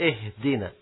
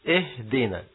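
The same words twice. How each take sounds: No difference in how they are said.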